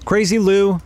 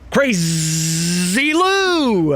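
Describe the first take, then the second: First: The z sound in 'Crazy' is short. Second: The z sound in 'Crazy' is drawn out.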